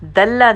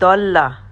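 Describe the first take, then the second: First: It starts with a plain dal sound. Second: It starts with the side-tongue dad sound. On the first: The speaker calls it wrong. "दल्ला नहीं कहना" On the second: The speaker calls it right. "यहाँ पे हमें दाल की आवाज़ ना निकल से"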